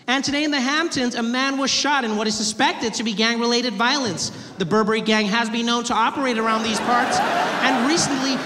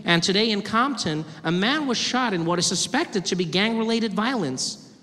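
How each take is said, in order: First: Louder, hammed-up newsreader; pompous news report; news anchor. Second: TV newsreader cadence; news anchor. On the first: News anchor Hamptons parody. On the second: Acted. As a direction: read it like evening news. News anchor report parody.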